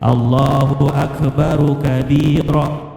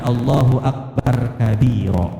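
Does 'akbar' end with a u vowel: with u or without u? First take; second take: with u; without u. First: The r in akbar is followed by a u vowel. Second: The r in akbar has no following vowel. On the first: The speaker calls it right. "dengan mendommahkan huruf ra, tidak mensukunkannya" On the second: The speaker calls it wrong.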